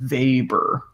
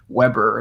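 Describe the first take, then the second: First: The name begins with a V sound. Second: The name begins with a W sound. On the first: "like V A Y B U R R" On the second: "even though it looks like Weber"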